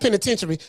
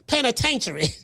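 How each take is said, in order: First: The word is said in a standard accent. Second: The word is said in a Southern country accent. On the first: "Not penitentiary"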